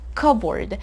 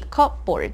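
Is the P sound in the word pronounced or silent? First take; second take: silent; pronounced. First: The P sound in the middle is silent. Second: The P sound in the middle is pronounced. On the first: The speaker calls it right. "it's cupboard" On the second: The speaker calls it wrong. "this word has a silent P, so we don't say cupboard"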